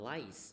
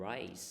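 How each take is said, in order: First: "rice" said with an L, like "lice"; mispronounced R. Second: "rice" said with a clear initial R; correct R sound. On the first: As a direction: turn the R of "rice" into an L. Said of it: "ถ้าออกเสียงผิดมันจะเป็น". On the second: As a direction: keep the R in "rice", not an L. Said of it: "แต่ว่าข้าวจะเป็น rice เนาะ จะเสียงต่างกัน". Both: Shown as a demonstration.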